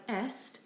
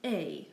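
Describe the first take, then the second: First: EST with S and T sounded; as spelt. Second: EST as "ay"; silent S and T. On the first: Teacher reading the spelling, sounded consonants. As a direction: say EST as it looks, "est". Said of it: "it does look like". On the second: Teacher correcting the spelling pronunciation, silent ending. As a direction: say EST with both consonants silent. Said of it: "also pronounced". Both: Shown as a demonstration.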